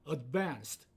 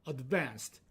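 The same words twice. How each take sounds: Both takes have the same delivery.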